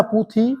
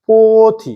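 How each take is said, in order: First: पुथी said with a short u, the Bangla way; wrong vowel. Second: पोथी said with a clear o in the first syllable; correct Hindi vowel. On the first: Teacher shows the wrong Bangla-style पुथी, u vowel. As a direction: say पुथी with u in the first syllable. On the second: Teacher gives the right Hindi पोथी, o vowel. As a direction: say पोथी with a long o. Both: Shown as a demonstration. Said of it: "पुथी नहीं बोलते".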